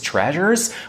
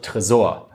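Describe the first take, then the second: First: The word is pronounced the English way. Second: The word is pronounced the German way.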